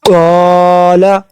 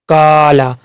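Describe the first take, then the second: First: The first consonant is full and heavy. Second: The first consonant is light and thin. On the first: The speaker calls it right. "कॉफ को हमेशा पूर्व मोटा पढ़ना चाहिए" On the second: The speaker calls it wrong. "जिस तरीका से अक्सर लोग पढ़ते हैं"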